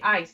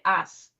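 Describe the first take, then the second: First: The vowel glides, like a standard 'eye' sound. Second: The vowel is flattened into a Southern drawl. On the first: "They don't say ice" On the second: "they say us"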